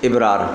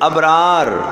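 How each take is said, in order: First: The word begins with an 'i' vowel. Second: The word begins with an 'a' vowel. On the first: The speaker calls it wrong. "लोग इसको इबरार पढ़ते हैं, ये भी गलत है" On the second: The speaker calls it right. "इबरार नहीं भाई, अबरार"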